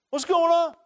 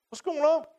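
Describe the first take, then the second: First: Put-on high boyish voice, a bit louder; wide-eyed boy asking what's up; eager youth calling out the question; young David. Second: Put-on high, eager young voice; curious boy asking around; young David. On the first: David's question repeated after aside. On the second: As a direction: ask it like a wide-eyed boy. David arrives at battlefront.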